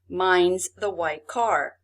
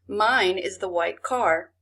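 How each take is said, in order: First: Mine and is are contracted to mine's. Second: Mine and is are said as two words. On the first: "This is a contracted form of mine is" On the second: "You would say"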